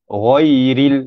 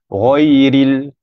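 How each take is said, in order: The two takes are said the same way.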